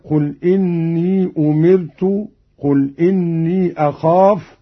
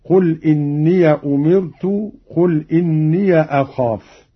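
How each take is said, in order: First: إني said as long "innii"; no a after the y of each إني; silent ya. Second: إني said "inniya"; open ya. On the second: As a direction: add short a after the y of each إني. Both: Shown as a demonstration. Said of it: "بفتح الياءين".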